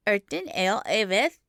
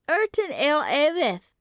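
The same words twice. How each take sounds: First: Lightly voiced small boy, offhand; indifferent child. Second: Put-on "Erton Ale Avith" lifted into a higher child key; in a different key. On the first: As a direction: toss the name off without interest. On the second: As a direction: repeat "Erton" on a new higher note. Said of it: "in a different key". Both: A narrator's reading.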